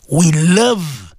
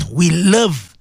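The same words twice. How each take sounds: The two takes are said the same way.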